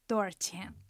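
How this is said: The middle syllable is reduced to 'ar'.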